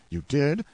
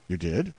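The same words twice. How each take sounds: First: Higher, louder rising disbelief; can't believe your ears; astonished question. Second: Said in the usual way. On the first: Acted. Yankee astonished at the wife's confession, loud rising question.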